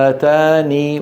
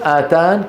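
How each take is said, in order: First: The word ends with a held long ee vowel. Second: The word ends on a bare, unvoweled n. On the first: "إثبات الياء ساكنة" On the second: "السكون آتان"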